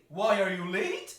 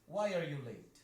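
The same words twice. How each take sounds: First: The voice rises at the end. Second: The voice falls at the end. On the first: The speaker calls it wrong. "You don't say" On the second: The speaker calls it right. "See, it goes down"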